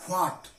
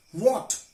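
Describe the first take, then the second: First: WHAT with the H pronounced after the W; wrongly sounded H. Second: WHAT with a plain W sound, no breath of H; silent H. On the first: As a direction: breathe an H into WHAT, as "hwot". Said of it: "not what". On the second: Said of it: "H is always silent when it is after". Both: Shown as a demonstration.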